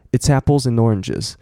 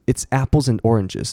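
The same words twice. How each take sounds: First: "it's apples and oranges" run together, "ts" joined to "apples"; quick blended "it's apples and oranges", weak "and"; fast linked reading. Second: "it's apples and oranges" with words fairly separate; careful reading. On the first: Teacher shows fast speech, linked "it's apples and oranges". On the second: Teacher gives the phrase first, careful "it's apples and oranges". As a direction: clear "apples and oranges", before speeding up. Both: Shown as a demonstration. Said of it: "然后念快变".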